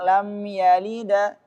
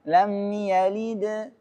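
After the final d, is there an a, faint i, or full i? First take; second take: a; faint i. First: The final d is followed by an a vowel. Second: The final d bounces with only a faint i. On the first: The speaker calls it wrong. "Kalau ke fathah lam yalida" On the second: The speaker calls it right. "kalau kasrah lam yalid"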